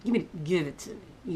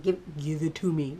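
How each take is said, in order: First: Gritted teeth. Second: Through clenched teeth; gritted teeth. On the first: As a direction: force it out through clenched teeth. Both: Retold or imitated. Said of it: "teeth gritted".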